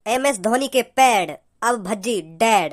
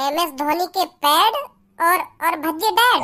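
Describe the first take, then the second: First: Slow villain punchline, dropping low at the end; dramatic dialogue. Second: Slow, low, questioning repeat; puzzled echo. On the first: Gangster's son delivers his catchphrase to Bhajji, slow dramatic dialogue. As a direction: draw out the threat like a film dialogue. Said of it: "मैं एक dialogue बोल रहा हूँ". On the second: Bhajji repeats the gangster's catchphrase back, puzzled and questioning. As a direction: echo the dialogue back in bafflement. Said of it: "का, का बोल गो?". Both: Acted.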